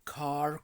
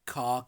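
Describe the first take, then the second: First: The final r sound is pronounced. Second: The final r sound is dropped.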